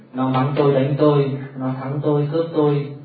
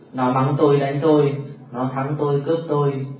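No difference in how they are said.

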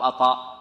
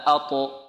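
First: The echo after the ṭ leans toward a. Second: The echo after the ṭ has no vowel color. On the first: The speaker calls it wrong. "نميلها الفتح" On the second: The speaker calls it right. "هكذا اضطراب في المخرج، لا تميل إلى حركة ما"

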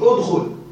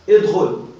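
First: The word begins with an 'u' vowel. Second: The word begins with an 'i' vowel. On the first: This is the standard literary form. "بضم همزة الوصل" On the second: This is the colloquial form. "عندنا في العامية كسرة في الكل"

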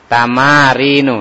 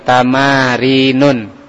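First: The word ends in a plain vowel, no final n. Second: The word ends with an added final n sound. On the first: The speaker calls it right. "tidak pakai tanwin ya" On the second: The speaker calls it wrong. "Kadang masih dibaca tadi tamarinun"

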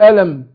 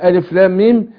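First: The letters are run together as one word. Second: Each letter is spoken by its full name. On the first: The speaker calls it wrong. "لو قرأتها على حسب الكتابة أقول ألم، مش هينفع" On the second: The speaker calls it right. "تقرأ لا على حسب الكتابة"

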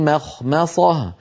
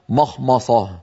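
First: The M sounds are light and thin. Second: The M sounds are heavy and dark. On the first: The speaker calls it right. "هكذا" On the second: The speaker calls it wrong. "وليس"

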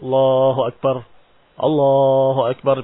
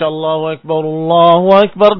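First: A clear pause separates the two phrases. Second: The two phrases run together without a pause. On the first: The two takbirs are treated as two units. "Pisah-pisah begitu" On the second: The two takbirs are treated as one unit.

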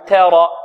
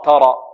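First: The vowel after the T leans toward an e. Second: The vowel after the T is thick and backed. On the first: "هذا تقليل" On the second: "ولا نقول تاء ترى تاء نفخم"

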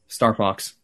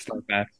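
First: The second word has the vowel of 'ox'. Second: The second word has the vowel of 'ax'. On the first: "Say Star Fox" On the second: "Usually you say Star Fax. / I do that as a joke"

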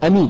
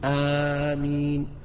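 First: The first vowel is short. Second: The first vowel is long. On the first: The speaker calls it wrong. "بدون مد" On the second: The speaker calls it right. "بالمد والتخفيف"

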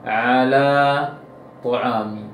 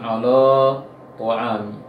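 First: The sound is pronounced light and thin. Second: The sound is pronounced heavy and thick. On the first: The speaker calls it right. "seharusnya ala tu'ami" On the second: The speaker calls it wrong. "jangan ala tu'ami"

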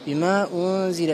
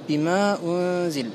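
First: The vowel of 'ma' is held only briefly. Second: The vowel of 'ma' is held only briefly.

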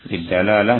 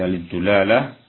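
First: The vowel after the d is a. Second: The vowel after the d is u. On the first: "sebagian mereka mengatakan fath ad-dalalah" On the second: "Bisa lidulalah"

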